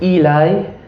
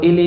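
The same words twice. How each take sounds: First: "Eli" said as EE-lye; long ee, then "Eli" ends like "eye"; new pronunciation of Eli. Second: "Eli" said as ELL-ee; short first vowel, "Eli" ending in ee; old pronunciation of Eli. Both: Shown as a demonstration. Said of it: "it's not Eli anymore".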